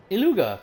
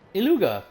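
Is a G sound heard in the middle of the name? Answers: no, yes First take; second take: yes; yes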